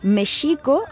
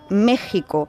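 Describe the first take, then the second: First: The x is pronounced as a soft sh sound. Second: The x is pronounced as a harsh guttural sound. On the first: This is how it was said centuries ago. "ese sonido sh" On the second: This is how it is said today. "hasta convertirse en nuestra J actual"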